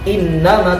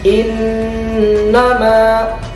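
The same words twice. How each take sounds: First: The n is short without a held nasal hum. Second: The n is nasalized and held a little longer. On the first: The speaker calls it wrong. "bukan innama" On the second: The speaker calls it right. "tapi innama"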